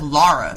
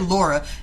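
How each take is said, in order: First: The first vowel sounds like the one in 'father'. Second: The first vowel sounds like the one in 'law'. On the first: The speaker calls it right. "Her name's not Laura" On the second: The speaker calls it wrong. "every time she would say Laura instead of Lara"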